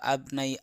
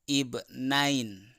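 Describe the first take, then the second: First: The word ends in a vowel without final n. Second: The word ends with an added n sound. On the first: The reading continues into the next word. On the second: The reader stops on this word.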